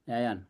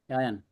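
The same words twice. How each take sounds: No difference in how they are said.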